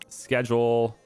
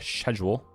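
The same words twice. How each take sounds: First: It is said with an American accent. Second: It is said with a British accent.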